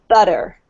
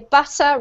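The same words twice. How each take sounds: First: The middle consonant sounds like a soft D. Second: The middle consonant is a clear T. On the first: "it's actually pronounced like a D sound. It's pronounced like this. So they would say butter" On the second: "in the U K accent, we pronounce the T usually. So we would say butter"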